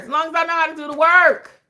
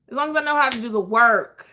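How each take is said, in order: First: Loud, high-pitched, hammed-up declaration; emphatic holler. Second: Said in the usual way. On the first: Real, not acted. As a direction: holler it, stretching the word work. Hammed-up first take, then repeated calmer.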